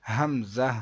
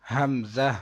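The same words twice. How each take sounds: Both takes have the same delivery.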